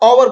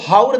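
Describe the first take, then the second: First: The word begins with a vowel, h silent. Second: The word begins with a sounded h. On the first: The speaker calls it right. "ओवर बोला जाता है" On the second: The speaker calls it wrong. "इसको हाउर नहीं"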